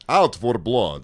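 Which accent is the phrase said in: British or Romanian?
Romanian. It is said in a Romanian accent.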